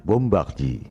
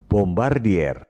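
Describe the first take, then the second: First: "Bombardier" said French-style, bom-bakh-jee; French pronunciation. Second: "Bombardier" read letter by letter in Indonesian, r sounded; Bombardier as written. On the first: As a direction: say "Bombardier" with throaty French r, ending silent. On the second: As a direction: say "Bombardier" as spelled, bom-bar-di-er. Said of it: "ucapan dan tulisannya memang beda". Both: Shown as a demonstration.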